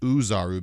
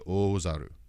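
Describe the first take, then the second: First: The word begins with an 'oo' sound. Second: The word begins with a long 'oh' sound. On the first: The speaker calls it wrong. "They read it as Uzaru" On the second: The speaker calls it right. "it's supposed to be Ozaru"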